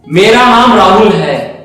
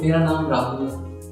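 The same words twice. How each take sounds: First: It is said in an angry tone. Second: It is said in a loving tone.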